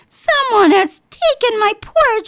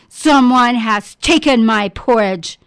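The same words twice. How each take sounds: First: The voice is small and high. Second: The voice is big and deep. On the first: "cried in his wee little voice" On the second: "bellowed in his big, deep voice"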